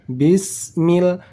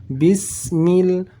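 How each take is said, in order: Both takes have the same delivery.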